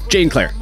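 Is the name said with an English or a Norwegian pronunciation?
English. The name has an English pronunciation.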